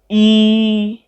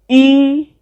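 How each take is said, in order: First: The word is said on a mid pitch. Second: The word is said on a high pitch.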